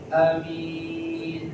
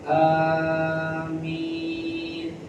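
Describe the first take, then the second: First: The first vowel a is short. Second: The first vowel a is long. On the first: "A-nya pendek" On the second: "yang paling fasih amin, ahnya panjang, minnya panjang"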